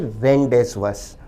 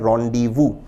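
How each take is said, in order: First: It sounds like ren-dez-vus, consonants all spoken. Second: It sounds like ron-dee-voo, final consonants silent. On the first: The speaker calls it wrong. "ना कि रेंडेसवस" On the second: The speaker calls it right. "शब्द का उच्चारण है रॉन्डीवू"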